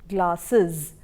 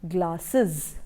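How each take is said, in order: No difference in how they are said.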